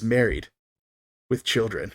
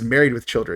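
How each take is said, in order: First: There is a pause after the first word. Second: It is said straight through without a pause. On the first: The speaker calls it right. "you have to put the pause in" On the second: The speaker calls it wrong. "everyone always says Married with Children"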